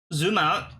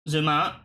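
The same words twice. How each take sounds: The two takes are said the same way.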